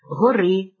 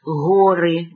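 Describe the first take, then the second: First: It carries the genitive singular stress placement. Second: It carries the nominative plural stress placement. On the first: It refers to one mountain, in the genitive. "форму родового відмінка однини" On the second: It refers to several mountains. "називного відмінка множини"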